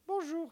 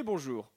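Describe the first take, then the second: First: High-pitched Marseillais greeting; Marseillais accent. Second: Said in the usual way. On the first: Acted. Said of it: "je reçois l'accent marseillais". (accent marseillais, voix haut perchée) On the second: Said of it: "Accent marseillais".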